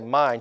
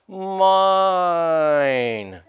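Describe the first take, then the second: First: The word is said plainly, without emphasis. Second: The word is said with strong, forceful emphasis.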